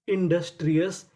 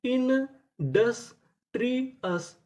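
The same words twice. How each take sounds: First: Said in the usual way. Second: Very slow, each syllable stretched, industrious drawn out and higher; slow drawn-out reveal. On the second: Shown as a demonstration. Teacher showing students how to read the word, very slow and drawn out. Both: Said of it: "तो हमारी पूरी meaning क्या बनी?".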